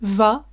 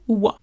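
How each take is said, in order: First: The first consonant is a V sound. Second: The first consonant is a W sound. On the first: "le V peut se prononcer comme un V" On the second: "ou comme un W"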